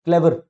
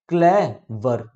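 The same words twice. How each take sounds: First: Said in the usual way. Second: "clever" slowly in two beats, clay - वर; split into syllables. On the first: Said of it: "कैसे?". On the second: Shown as a demonstration. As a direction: pause between "clay" and "वर" in "clever". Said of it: "देखो दो syllable आ गए". ("Clever" को दो टुकड़ों में, रुक कर)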